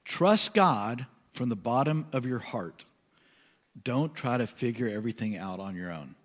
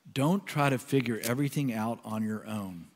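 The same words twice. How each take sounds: First: Scripture reading. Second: Unhurried, softened reading of the line; slow prayerful reading. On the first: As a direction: let each phrase land. Reads Message version. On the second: Pastor rereading the verse in prayer, slow and soft. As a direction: read it slowly and let it sink in. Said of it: "I'm gonna read it slowly". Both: Acted.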